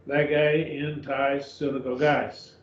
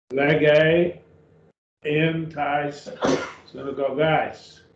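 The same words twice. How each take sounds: First: "Lege in tais synagogues" read slowly, word by word, each syllable spelled out; slow careful reading. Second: Said in the usual way. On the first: Shown as a demonstration. Teacher rereads the Greek phrase for the class, slow and careful. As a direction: lay out the Greek slowly for the students to follow.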